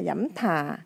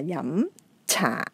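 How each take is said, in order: First: The second word begins with an aspirated th sound. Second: The second word begins with a ch sound. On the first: The speaker calls it wrong. "hay là dẫm thà" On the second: The speaker calls it right. "mà là dẫm trà"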